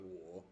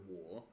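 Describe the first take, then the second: First: Wo kept low with a small rise; wo as a half third tone, low and soft; low rising third tone. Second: Wo dipping down then rising; wo in a full Mandarin third tone; dip-rise third tone. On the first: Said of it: "a really low rising tone". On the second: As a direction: scoop wo down and back up. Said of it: "It goes down and then up". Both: Shown as a demonstration.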